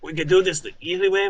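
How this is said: It is said in a character voice.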